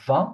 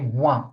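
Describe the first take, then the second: First: The word begins with a V sound. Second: The word begins with a W sound. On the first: The speaker calls it right. "instead of saying vin, V" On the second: The speaker calls it wrong. "they say one"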